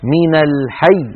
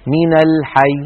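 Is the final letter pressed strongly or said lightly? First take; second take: strong; light. First: The final letter is pressed with strong force. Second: The final letter is said weakly and lightly. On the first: The speaker calls it right. "بهذه الضغطة" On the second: The speaker calls it wrong. "هكذا بياء ضعيفة خفيفة"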